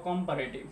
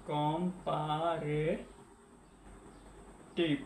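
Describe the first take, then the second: First: Said in the usual way. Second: comparative very slowly, syllable by syllable, softly; drawn-out while writing. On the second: Real, not acted. Teacher writing the note, comparative drawn out softly by syllable. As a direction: stretch each syllable of comparative quietly.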